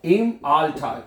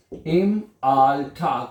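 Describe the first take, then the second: First: Said in the usual way. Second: Drawn-out very slow; slow repeat. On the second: Shown as a demonstration. Teacher repeating the phrase slowly for students. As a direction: stretch each syllable.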